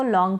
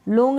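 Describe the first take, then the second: First: लॉन्ग with an open "aw" as "lawng"; open-o pronunciation. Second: लॉन्ग misread with a closed "oh" as "lohng"; wrong long-o reading. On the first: Teacher corrects the misreading, open-o लॉन्ग. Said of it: "पढ़ेंगे". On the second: Teacher rules out a misreading, closed-o लॉन्ग. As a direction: say लॉन्ग like "लोंग". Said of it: "नहीं पढ़ेंगे इसको". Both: Shown as a demonstration.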